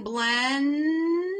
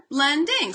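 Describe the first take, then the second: First: Put-on slow drawn-out "blending" as a child sounds it. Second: Said in the usual way. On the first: Shown as a demonstration. Teacher modelling a child blending a long word slowly. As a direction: stretch "blending" out syllable by syllable. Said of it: "the child says blend". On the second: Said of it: "Put 'em together".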